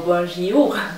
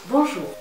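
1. Después de la j hay un sonido i extra. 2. La j se une directamente a la o. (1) "No es bonjour o bonjour" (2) "Es bonjour. ¿Ves cómo hemos quitado la I de por medio?"

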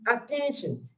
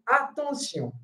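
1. Het wordt uitgesproken met Engelse klanken. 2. Het wordt uitgesproken met Franse klanken. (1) "in English, you can say attention" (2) "but in French, we have to say attention"

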